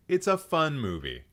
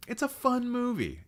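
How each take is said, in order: First: Said in the usual way. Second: High-pitched defensive squeal; high, comic insistence; playful protest. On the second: Real, not acted. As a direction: plead the case in a voice pitched way up. Defends a panned film playfully.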